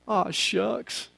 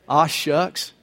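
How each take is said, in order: First: Very soft, shy aside as bashful Ruth; bashful whisper. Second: Said in the usual way. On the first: Acted. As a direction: murmur it sheepishly, almost under the breath. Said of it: "blushes and she whispers". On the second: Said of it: "You get it?".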